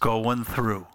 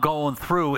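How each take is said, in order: First: It is said in a flat, dejected tone. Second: It is said in an excited, confident tone. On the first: The speaker feels weighed down by the trouble. The speaker calls it wrong. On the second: The speaker is confident of getting through the trouble. The speaker calls it right.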